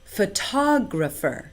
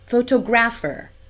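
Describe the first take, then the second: First: The stress falls where native speakers put it. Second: The stress falls where Singapore English puts it. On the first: The speaker calls it right. "instead of" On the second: The speaker calls it wrong. "I often hear"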